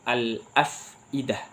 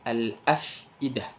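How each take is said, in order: The two takes are said the same way.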